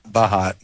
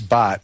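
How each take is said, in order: First: The name is said as two syllables. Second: The name is said as one short syllable. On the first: The speaker calls it wrong. "not Bahat... that's not the correct pronunciation" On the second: The speaker calls it right. "Is it's Bot"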